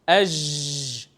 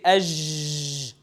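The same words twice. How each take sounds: First: The j sound is drawn out and keeps flowing. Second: The j sound is drawn out and keeps flowing.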